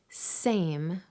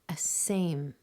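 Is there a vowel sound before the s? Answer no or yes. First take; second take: no; yes. First: The word starts directly with the s sound. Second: A short eh vowel comes before the s. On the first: The speaker calls it right. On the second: The speaker calls it wrong.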